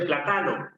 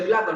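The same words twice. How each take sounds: First: It is said in a mocked Andean accent. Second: It is said in standard Spanish pronunciation. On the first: This is how comedians claim a Quechua speaker says it. "dice plátano" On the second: This is the standard form the person does not use. "no dice plátano"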